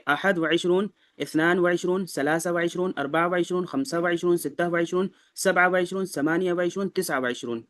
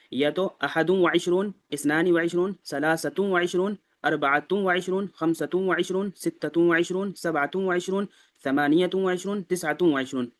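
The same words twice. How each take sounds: First: ثلاثة read as "salasa", no ending before وعشرون; demo without endings. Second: Each number read with a "-tu" ending before وعشرون; ثلاثة read as "salasatu"; demo with full endings. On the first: Teacher shows the short, unvowelled way of counting. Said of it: "ایسے ہی چھوڑ دیں گے". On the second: Teacher demonstrates the vowelled way of counting. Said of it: "اسی طرح اب اس کو بھی بولیں گے". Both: Shown as a demonstration.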